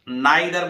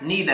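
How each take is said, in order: First: The first vowel sounds like 'eye'. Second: The first vowel sounds like 'ee'. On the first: The speaker calls it wrong. "वैसे हम नाइदर बोलते हैं ना" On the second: The speaker calls it right. "सही उच्चारण इसका ईदर है और इसका नीदर है"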